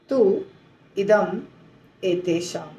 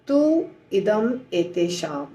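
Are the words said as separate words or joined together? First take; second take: separate; separate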